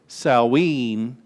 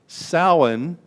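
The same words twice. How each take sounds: First: It is pronounced the way it is in Wales. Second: It is pronounced the way it is in Ireland. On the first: "Samhain in Wales" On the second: "is pronounced Samhain in Ireland"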